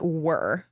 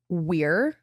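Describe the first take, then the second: First: The word sounds like 'were' in a Michigan accent. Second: The word has a standard 'we're' vowel. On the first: "But it came out like were" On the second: "It was during the word we're"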